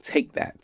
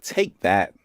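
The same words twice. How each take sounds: First: Breathy whispered push. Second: Said in the usual way. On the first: Acted. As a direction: whisper it like a secret blast of energy. Sending energy, repeated chant.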